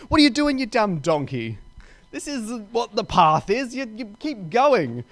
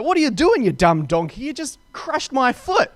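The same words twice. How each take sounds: First: Sharp high start, then easing into a mock scold; furious retold rebuke. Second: High, loud mock outburst at the donkey; furious retold rebuke. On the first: Rider scolding the stopped donkey, milder mock anger. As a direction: scold the donkey like an impatient master. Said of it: "He's getting furious". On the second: Rider yelling at his donkey for crushing his foot, mock furious. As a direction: snap at the dumb donkey, hammed up. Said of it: "he's furious at that".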